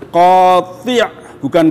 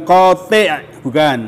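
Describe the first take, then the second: No difference in how they are said.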